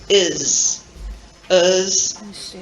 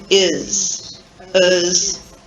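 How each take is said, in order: Both takes have the same delivery.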